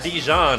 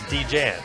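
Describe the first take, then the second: First: The second syllable sounds like 'john'. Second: The second syllable sounds like 'jan'. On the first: The speaker calls it wrong. "It's not Dijon" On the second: The speaker calls it right. "It's D-Jan"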